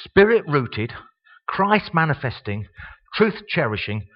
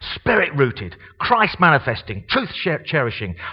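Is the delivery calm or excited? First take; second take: calm; excited. First: It is read in a calm, plain manner. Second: It is read in a lively, excited manner.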